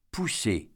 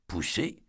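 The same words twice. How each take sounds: First: Said in the usual way. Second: "Poussée?" asked back softly with a rising end; a soft, stunned echo of "Poussée?"; quiet disbelieving "Poussée?" with an upward lift; echoed question. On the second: A narrator's reading.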